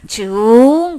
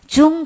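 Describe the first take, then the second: First: The pitch of the word curves upward. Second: The pitch of the word does not rise. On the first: It means repeat or again. "발음이 이렇게 휘어져서 올라가요" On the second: It means heavy. "그냥 우리 일반적으로 무거울 중하대는 중 그래요 그냥"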